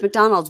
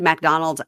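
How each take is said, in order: First: The first syllable has a weak vowel, no 'a'. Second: The first syllable has a clear 'a' vowel. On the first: "it's McDonald's" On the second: "if you said McDonald's"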